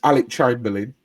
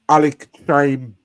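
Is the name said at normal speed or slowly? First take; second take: normal speed; slowly. First: It is said at normal speed. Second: It is said slowly, syllable by syllable.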